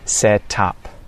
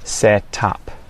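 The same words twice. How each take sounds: First: The T is clearly and fully released. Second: The T is clearly and fully released.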